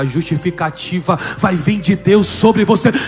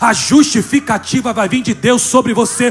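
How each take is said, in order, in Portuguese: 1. É dita em força normal. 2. É dita com mais força.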